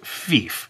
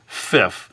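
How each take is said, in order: First: The vowel is long, as in 'beef'. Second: The vowel is short, as in 'if'. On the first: The speaker calls it right. "instead of Fief" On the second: The speaker calls it wrong. "they might accidentally pronounce it as Fif"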